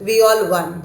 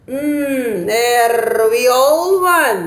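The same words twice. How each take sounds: First: Said in the usual way. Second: Very slow, drawn-out musing voice; pondering Dodo. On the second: Acted. Dodo deciding the winner, slow and thoughtful. Dodo thinks with his finger.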